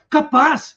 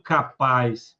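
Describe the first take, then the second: First: The word sounds surprised. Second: The word sounds doubtful and challenging. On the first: The speaker is surprised. "estou surpreso" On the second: The speaker doubts the listener would do it. "te duvido"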